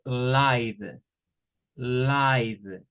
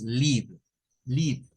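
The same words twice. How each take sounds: First: "live" drawn out as laiv, silent e; long i sound. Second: "live" with a short i, as in "liv"; short i sound. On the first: Teacher showing second definition, "live" pronounced long laiv. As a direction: say "live" slowly to rhyme with five. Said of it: "la E no suena y esta suena a". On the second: Teacher showing the verb, "live" pronounced liv with short i. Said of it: "aparece con un sonido I, un sonido corto". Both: Shown as a demonstration.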